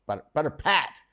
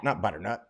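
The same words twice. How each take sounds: First: "butter pat" with "pat" lifted high and firm; correcting with a firm lift on "pat"; stress on pat. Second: "butternut" said lower and softer as the rejected word; dropping "butternut" as the wrong one; wrong name. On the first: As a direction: hit "pat" to correct the name. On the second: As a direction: set "butternut" aside, quietly correcting. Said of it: "or butter pat". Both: Shown as a demonstration.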